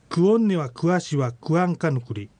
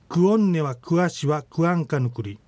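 No difference in how they are said.

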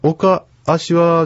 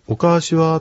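First: There is a pause between oka and ashi. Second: There is no pause between oka and ashi. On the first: The speaker calls it wrong. "おかあしはじゃなくて" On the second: The speaker calls it right. "ここはまは置かない方がよろしいですね"

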